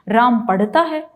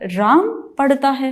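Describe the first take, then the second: First: The stress falls on the verb पढ़ता. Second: The stress falls on the name Ram. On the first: It questions whether the reading really happens. "पढ़ता है इस पर जब जोर दिया है" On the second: It questions whether it is really this person reading. "आप राम पर एक विशेष उस पर स्ट्रेस दे रहे हैं"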